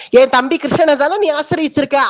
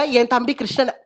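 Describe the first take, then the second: First: Accusing, building on the repeat; emphatic accusation. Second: Said in the usual way. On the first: Acted. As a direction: press hard on நீ.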